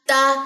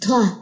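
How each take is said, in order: First: The t is firm, with no breath escaping. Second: The t is loose, with breath escaping. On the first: The speaker calls it right. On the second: The speaker calls it wrong.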